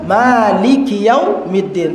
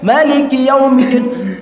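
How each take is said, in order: First: The first vowel of Maliki is held long. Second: The first vowel of Maliki is kept short. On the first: "Seharusnya dibaca apa panjang kan?" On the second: "Tapi dibaca pendek"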